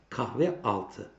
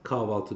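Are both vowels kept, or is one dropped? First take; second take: both kept; one dropped. First: Both adjacent vowels are pronounced separately. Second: One of the two vowels is dropped. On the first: "Bak iki tane ünlü yan yana" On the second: "Sen buna kahvaltı diyorsun"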